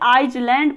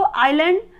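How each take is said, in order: First: A Z sound is heard in the middle. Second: There is no S sound in the middle. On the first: The speaker calls it wrong. "या फिर आइजलैंड पढ़ सकते हैं" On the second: The speaker calls it right. "S silent है तो इसको आइलैंड"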